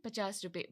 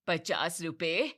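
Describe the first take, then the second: First: Said in the usual way. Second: Slow, louder disbelieving पचास रुपए rising at the end; shocked repeat. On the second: Acted. Mother-in-law scoffing at fifty rupees, slow disbelief.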